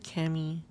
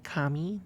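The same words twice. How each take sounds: First: The name is said with English-style vowels. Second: The name is said with Japanese-style vowels. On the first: It is the name as used in the game. "she pronounced it Kami" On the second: It means God. "if you pronounce it the Japanese way"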